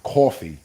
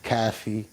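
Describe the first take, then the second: First: The word is said the New York way. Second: The word is said another region's way. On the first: This is how people in New York say it. "us folks in New York. We call it coffee. We say the whole thing" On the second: This is how people elsewhere say it. "other places they say caffee"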